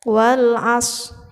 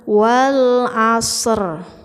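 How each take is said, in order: First: The final r sound is not heard at all. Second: The final r sound is loud and very clear. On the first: "seperti tidak ada huruf ro saja" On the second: "Jangan wal asr, yaitu terlalu jelas"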